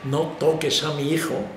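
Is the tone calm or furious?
calm. It is said in a normal, calm tone.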